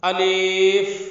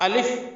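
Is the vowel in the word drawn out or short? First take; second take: drawn out; short. First: The vowel is stretched out too long. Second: The vowel is said quickly and short. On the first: The speaker calls it wrong. "इसको बच्चे ज़्यादा खींच देते हैं" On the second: The speaker calls it right. "जल्दी के साथ और सही तलफ़्फ़ुज़ के साथ"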